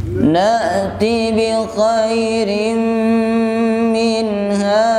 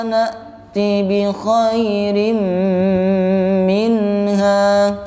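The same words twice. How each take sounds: The two takes are said the same way.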